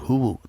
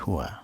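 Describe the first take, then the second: First: The word ends with a 'u' vowel. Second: The word ends with an 'a' vowel. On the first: The speaker calls it wrong. "bukan huwu" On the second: The speaker calls it right. "tapi huwa"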